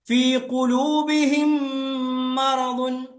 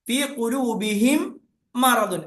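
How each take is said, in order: First: The final m merges into the next word's m. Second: The final m is kept separate from the next word. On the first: The speaker calls it right. "കൂട്ടിയിട്ടാ പറയാ" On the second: The speaker calls it wrong. "അങ്ങനെയല്ല"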